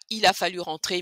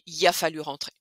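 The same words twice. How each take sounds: First: Il a is said in full as two syllables. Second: Il a shrinks to a single ya sound. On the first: The speaker calls it wrong. "c'est pas il a fallu rentrer" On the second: The speaker calls it right. "ça va devenir ya"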